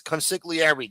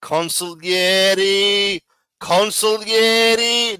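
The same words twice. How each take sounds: First: Consigliere with a hard g, said kon-sig-lee-air-ee; wrong pronunciation. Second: Consigliere said slowly as kon-sil-yeh-ree, no g; drawn-out consigliere with silent g, louder, showing how it's done; correct Italian pronunciation. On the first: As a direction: consigliere pronounced with the g sounded, the way he mocks. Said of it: "stop saying fucking cons". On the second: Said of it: "Not fucking consigliere". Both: Shown as a demonstration.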